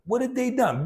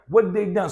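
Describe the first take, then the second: First: The word 'had' is pronounced in full. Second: The word 'had' is reduced away almost entirely.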